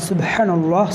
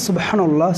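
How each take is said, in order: The two takes are said the same way.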